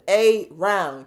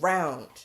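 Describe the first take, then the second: First: The word is split, with a stressed opening a. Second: The word is said smoothly as one unit.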